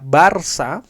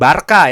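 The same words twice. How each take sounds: First: The middle consonant sounds like s. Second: The middle consonant sounds like k. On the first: The speaker calls it right. "Barca karena Barcelona" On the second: The speaker calls it wrong. "bukan Barca ya"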